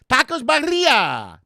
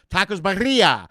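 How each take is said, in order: First: "Tacos birria" drawn out slowly, high, with a rolled r; exaggerated birria. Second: Birria with a rolled r, said with care; tacos birria said right. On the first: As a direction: ham up "birria" with a rolling r, slow and high. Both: Shown as a demonstration. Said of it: "I'm sorry".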